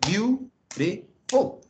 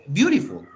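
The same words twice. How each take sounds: First: "Beautiful" slowly split into three beats; syllable by syllable. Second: Said in the usual way. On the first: Shown as a demonstration. Teacher counting three syllables aloud, "Beautiful" broken into slow separate beats. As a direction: draw out "Beautiful", pausing between its three syllables. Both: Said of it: "tres sílabas".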